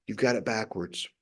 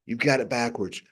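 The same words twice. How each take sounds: First: You've got it backwards said again, softer and lower; soft echoed You've got it backwards; quieter repeat. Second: Said in the usual way. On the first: Shown as a demonstration. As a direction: let You've got it backwards drop to a hushed echo. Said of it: "repeated softer". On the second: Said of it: "repeated line".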